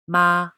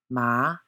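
First: The pitch stays level and high. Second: The pitch rises from mid to high. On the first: "The first tone, ma, a flat note" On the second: "Second tone, ma, a rising note"

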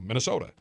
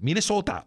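First: It is said in a plain general accent. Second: It is said in a Minnesota accent.

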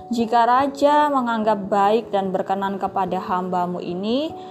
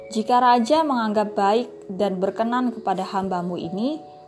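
No difference in how they are said.

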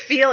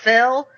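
First: The vowel is a long 'ee' sound. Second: The vowel is a short 'eh' sound. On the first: "When you say feel" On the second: "it comes out fell"

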